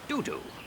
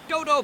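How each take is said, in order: First: The word is said with an 'oo' vowel. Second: The word is said with an 'oh' vowel. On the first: The speaker calls it wrong. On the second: The speaker calls it right.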